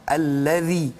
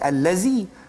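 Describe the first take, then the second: First: The consonant is a soft th sound. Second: The consonant is a buzzing z sound. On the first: The speaker calls it right. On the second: The speaker calls it wrong. "mungkin bunyikan huruf zai"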